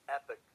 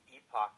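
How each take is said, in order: First: It is said the Texas way, like 'epic'. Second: It is said the Philadelphia way, like 'e-pock'.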